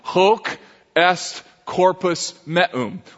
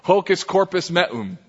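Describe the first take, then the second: First: The phrase is said slowly with each word distinct. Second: The phrase is said fast with words run together. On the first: "here's how it would sound in Latin" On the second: "if you said it fast enough, here's what it sounds like"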